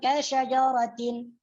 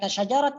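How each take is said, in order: First: The word ends with a full -atin ending. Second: The word ends with a t sound. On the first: "kalau dibaca wasal" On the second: "kasyajaratin dibaca kasyajarat ke"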